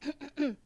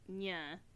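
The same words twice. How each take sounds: First: It is said in a shocked way. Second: It is said flat, with no energy.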